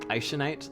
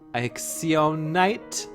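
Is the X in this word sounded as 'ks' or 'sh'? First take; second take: sh; ks. First: The X is sounded like 'sh'. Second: The X is not sounded like 'sh'.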